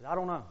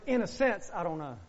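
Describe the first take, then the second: First: Said in the usual way. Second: "I don't know" said much softer and lower, almost hushed; soft, lower admission. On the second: Shown as a demonstration. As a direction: drop the voice and admit it quietly. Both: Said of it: "Now let me say it like this".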